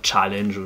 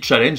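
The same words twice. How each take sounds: First: The word is said with an English accent. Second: The word is said with a French accent. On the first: "Ça aurait pu dire challenge" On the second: "tu le prononces à la française aussi"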